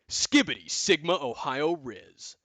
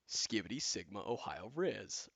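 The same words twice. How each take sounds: First: It is said with lots of enthusiasm. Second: It is said flatly, without much energy.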